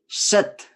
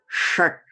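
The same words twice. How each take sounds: First: The opening sh sound is harsher. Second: The opening sh sound is softer. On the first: The speaker calls it wrong. "It's not shat" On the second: The speaker calls it right. "You can hear that softness of that"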